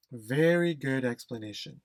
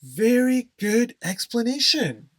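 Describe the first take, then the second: First: Said in the usual way. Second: Loud, high, enthusiastic praise; emphatic praise. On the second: Shown as a demonstration. Teacher loudly praising a student's answer, enthusiastic. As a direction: cheer the explanation out.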